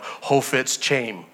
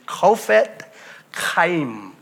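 First: The name is pronounced the Americanized way. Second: The name is pronounced the original, non-American way. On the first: The speaker calls it wrong. "we see it in America and we think, you know" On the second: The speaker calls it right. "I believe the correct pronunciation of his name is"

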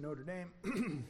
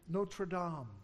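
First: It is said with an Indiana American pronunciation. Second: It is said with a French pronunciation.

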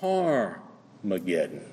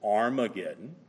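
First: The word begins with an h sound. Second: The word begins directly with a vowel sound. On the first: The word is read with the rough breathing mark. "The only thing that signifies is that you pronounce it H" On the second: The word is read without the rough breathing mark. "Is it Armageddon"

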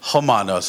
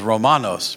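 First: The word begins with an H sound. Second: The word begins with an R sound. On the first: The speaker calls it right. "R's are H sound" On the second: The speaker calls it wrong.

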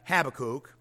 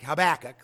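First: The stress is on the first syllable. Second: The stress is on the second syllable. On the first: The speaker calls it right. "but Habakkuk" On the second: The speaker calls it wrong. "not Habakkuk, like tobacco"

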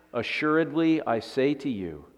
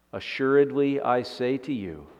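Both takes have the same delivery.

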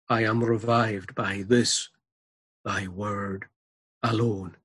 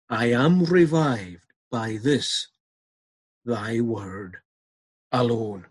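First: It is read at a normal pace. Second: It is read slowly and deliberately.

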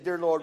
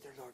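First: It is said loudly and openly. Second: It is said quietly, almost hushed. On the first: The speaker prays openly without shame. The speaker calls it right. "I love to pray out loud" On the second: The speaker hides the prayer from others. The speaker calls it wrong. "not like this. ... I don't want anybody to hear me"

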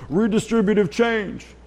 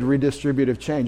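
First: It is said in a put-on accent. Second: It is said in the speaker's normal accent.

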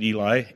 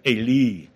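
First: The name is said the usual English way. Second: The name is said closer to Hebrew. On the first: "We pronounce it Eli" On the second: "I think is probably better for the Hebrew"

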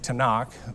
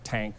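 First: It has three syllables ending in a throaty kh. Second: It is one short syllable with an a vowel. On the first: The speaker calls it right. "they say Tanakh" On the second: The speaker calls it wrong. "or Tank"

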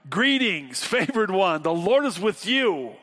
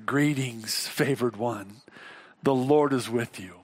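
First: It is said with lively, exuberant energy. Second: It is said in a calm, plain reading voice.

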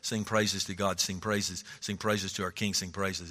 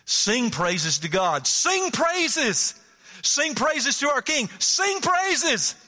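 First: It is said mildly, without commanding force. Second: It is said forcefully, as a command.

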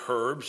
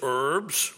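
First: English accent; the initial h is pronounced. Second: American accent; the initial h is silent.

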